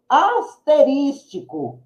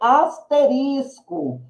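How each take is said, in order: First: The word has five syllables, with an extra 'ti'. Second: The word has four syllables, no extra 'ti'. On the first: The speaker calls it wrong. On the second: The speaker calls it right.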